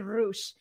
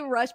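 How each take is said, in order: First: The vowel in the name is long. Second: The vowel in the name is short. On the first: "obviously a little longer to say" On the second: "I say Rush"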